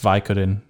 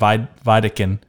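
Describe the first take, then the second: First: The second consonant is k, then d. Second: The second consonant is d, then k. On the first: The speaker calls it right. "and it's Vicodin" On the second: The speaker calls it wrong. "And I said Vidican"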